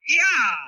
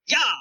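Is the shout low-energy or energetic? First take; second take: energetic; low-energy. First: It is said with more energy and force. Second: It is said with little energy.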